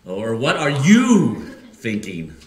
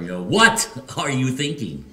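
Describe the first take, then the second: First: "you" drawn out slow and much louder; stress on you. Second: "what" hit hard and high; stress on what. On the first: Pastor shows the church the stress on you, loud and slow. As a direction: punch "you" in "what are you thinking", slowly. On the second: Pastor shows the church the stress on what, emphatic. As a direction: lift and punch "what" in "what are you thinking". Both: Shown as a demonstration. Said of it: "putting the emphasis on a different word".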